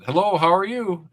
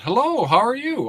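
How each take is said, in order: First: It is said in a manly voice. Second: It is said in a childlike voice. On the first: It is addressed to an adult. "in a more manly voice" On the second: It is addressed to a small child. "in a you know more childer voice"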